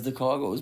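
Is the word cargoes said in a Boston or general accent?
general. The word is said in a general American accent. The speaker calls it wrong.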